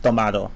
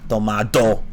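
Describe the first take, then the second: First: The D is a soft, light sound. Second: The D is a hard, full stop. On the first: "I guess it was a soft D" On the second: "like a hard D"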